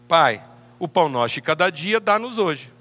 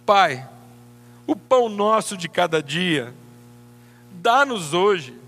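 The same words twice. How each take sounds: First: It sounds confident and certain, not begging. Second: It sounds pleading and hopeful, like begging.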